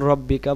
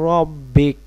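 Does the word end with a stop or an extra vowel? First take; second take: extra vowel; stop. First: The word ends with an added final vowel. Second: The word stops short on the final consonant. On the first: The reciter continues without pausing. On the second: The reciter pauses for breath here.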